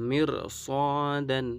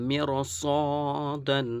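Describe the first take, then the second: No difference in how they are said.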